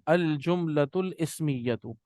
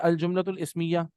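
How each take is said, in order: First: The last word ends with a full vowel. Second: The last word ends without its final vowel.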